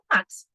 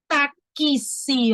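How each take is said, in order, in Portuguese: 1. O x é dito como um ks rápido e natural. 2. O x é separado em sílabas k-s distintas, com ênfase exagerada. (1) "a gente fala táxi, normal" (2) "Eu estou forçando para que vocês ouçam"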